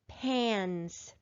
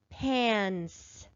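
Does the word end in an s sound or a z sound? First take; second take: s; s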